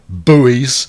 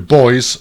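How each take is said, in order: First: Buoys is said the American way. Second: Buoys is said like boys, non-American.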